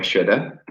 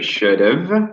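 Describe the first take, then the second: First: Have is reduced to a weak a sound. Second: The word have is pronounced fully.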